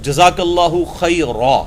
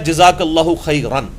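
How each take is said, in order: First: The last word ends with a long vowel. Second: The last word ends with an n sound. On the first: The phrase is concluded with a pause. The speaker calls it right. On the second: The phrase continues without a pause. The speaker calls it wrong.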